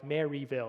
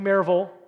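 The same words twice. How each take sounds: First: It is said with a non-Southern pronunciation. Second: It is said with a local Southern pronunciation. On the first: The speaker sounds like an outsider. "It was always Maryville" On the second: The speaker now sounds like a local. "I'm there on Maryville, I think I got it"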